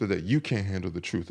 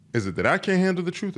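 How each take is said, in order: First: "you" stressed in a low, soft phrase. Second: "I" lifted high in contrast; stress on I. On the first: Speaker turning the excuse back on guys, stress on "you". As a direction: turn it back by leaning on "you". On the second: Speaker questioning guys' excuse about the truth, stress on "I". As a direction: set "I" against the other person. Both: Real, not acted.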